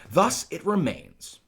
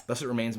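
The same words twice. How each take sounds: First: High, loud and drawn out; declaimed verse line. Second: Said in the usual way. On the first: Acted. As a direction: declaim it slowly like stage Shakespeare. Reads the line, then explains it.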